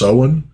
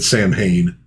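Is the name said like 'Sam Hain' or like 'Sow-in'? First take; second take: Sow-in; Sam Hain. First: The name is said as two syllables, 'sow-in'. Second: The name is said as spelled, 'sam-hain'. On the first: The speaker calls it right. "I think it's actually pronounced Soen" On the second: The speaker calls it wrong. "the first time I ever saw it, yeah, I said Sam Hain"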